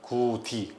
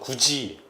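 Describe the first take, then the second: First: The second syllable starts with a d sound. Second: The second syllable starts with a j sound. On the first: The speaker calls it wrong. "혀 끝이 윗 잇몸 여기에 부딪혀서 나옵니다" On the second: The speaker calls it right. "입천장 여기서 발음이 나요"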